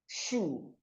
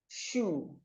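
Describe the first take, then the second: Both takes have the same delivery.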